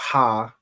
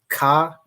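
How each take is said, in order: First: It starts with a soft breathy h sound. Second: It starts with a hard stopped k sound. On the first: "and it's not ha" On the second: "It's not ka. That would be like the the K A"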